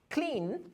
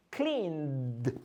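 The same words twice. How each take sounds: First: Said in the usual way. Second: Cleaned with a soft breathy d; soft d ending. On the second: Shown as a demonstration.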